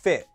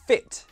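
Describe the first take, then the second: First: The t is replaced by a glottal stop. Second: The t is pronounced as a clear t.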